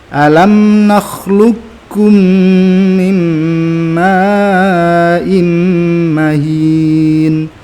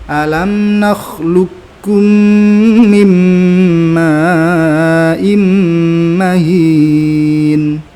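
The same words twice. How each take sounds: Both takes have the same delivery.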